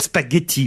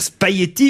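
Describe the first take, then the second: First: The G sound is clearly pronounced. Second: The G sound is barely heard. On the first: This is how critics say it should be said. The speaker calls it right. "mais qu'il faut dire spaghetti" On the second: This is how the speaker normally says it. The speaker calls it wrong. "ils disent que je dis spaghetti et qu'il ne faut pas dire spaghetti"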